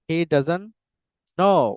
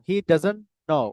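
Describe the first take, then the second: First: The t at the end of doesn't is dropped. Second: The t at the end of doesn't is pronounced. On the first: The speaker calls it right. "এরকম উচ্চারণ করতে পারেন" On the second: The speaker calls it wrong. "এভাবে বলা যাবে না"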